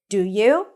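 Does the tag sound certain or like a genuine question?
genuine question. The tag sounds like a genuine, open question. The asker really wants to know the answer. "the first option, do you, sounds like a genuine question"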